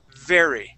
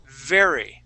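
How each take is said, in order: No difference in how they are said.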